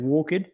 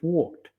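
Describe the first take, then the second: First: The ending is a separate, stressed 'ed' syllable. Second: The ending is a short 't' sound only. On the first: The speaker calls it wrong. "you emphasize the ed" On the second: The speaker calls it right. "It sounds like you're putting a T on the end instead of the ed"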